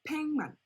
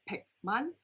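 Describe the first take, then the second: First: The first syllable ends in a nasal ng sound. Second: The first syllable ends in a hard k sound. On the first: The speaker calls it right. "팽 with the N G sound" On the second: The speaker calls it wrong. "it's not 백만"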